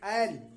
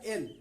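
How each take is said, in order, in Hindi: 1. स्वर खुला 'ae' ध्वनि है। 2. स्वर बंद 'e' ध्वनि है। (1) "ऐकार की मात्रा के साथ बोलेंगे" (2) "लोग बोलने में गलत करते हैं"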